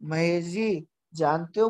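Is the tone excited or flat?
flat. It is said flatly, without emotion. Nothing will come of it. The speaker calls it wrong.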